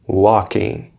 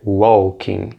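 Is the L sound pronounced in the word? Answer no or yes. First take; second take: no; yes. First: The L sound is silent in the word. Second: The L sound is pronounced in the word. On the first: The speaker calls it right. "o L não é pronunciado" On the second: The speaker calls it wrong. "não é walking"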